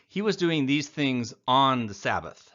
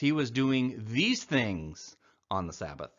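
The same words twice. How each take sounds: First: The stress falls on the word Sabbath. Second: The stress falls on the word things. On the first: The focus is on when he did it. The speaker calls it wrong. "It's not when Jesus was doing" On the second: The focus is on what he did. The speaker calls it right. "it's what he was doing"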